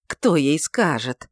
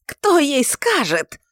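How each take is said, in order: First: Said in the usual way. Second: High, slow, loud yell; a loud drawn-out howl. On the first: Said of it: "повторил он". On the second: A narrator's reading. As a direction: scream the question out. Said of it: "вопил он".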